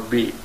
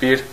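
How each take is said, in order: First: The word ends without any r sound. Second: The word ends with a clear r sound. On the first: "sometimes we pronounce it as B" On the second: "we can pronounce it bir or B"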